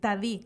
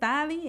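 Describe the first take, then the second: First: The stress is on the last syllable. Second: The stress is on the first syllable. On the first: The speaker calls it right. "con el acento de la doble I" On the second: The speaker calls it wrong. "entonces ya no"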